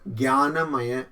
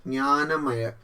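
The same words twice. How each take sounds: No difference in how they are said.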